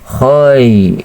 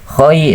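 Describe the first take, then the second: First: The syllable is drawn out softly and smoothly. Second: The syllable is said short and quick. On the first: The speaker calls it right. "ini lembut nih" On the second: The speaker calls it wrong. "khoi itu terlalu cepat"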